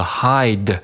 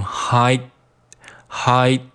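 First: Said in the usual way. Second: "hide" cut off before the d bursts; unreleased D. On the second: Shown as a demonstration. Teacher drilling learners, slow "hide" with unreleased d. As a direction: hold back the final d in "hide", slowly. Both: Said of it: "这个的失去爆破".

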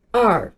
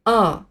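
First: "R" as "ar" with a curled r ending; American R. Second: "R" as an open "ah", no r colouring; non-rhotic letter name "R"; British R. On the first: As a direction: finish "R" on an erhua-like r colouring. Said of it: "尾音有点像我们平时说的儿化音". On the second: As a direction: say "R" the British way, like a sighed "ah". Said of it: "在英国". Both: Shown as a demonstration.

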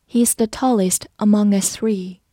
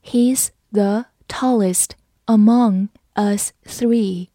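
First: Said in the usual way. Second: Slow, careful reading for learners. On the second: Shown as a demonstration. Teacher reads slowly for the class. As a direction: read it slowly, word by word. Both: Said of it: "好，慢读一遍。".

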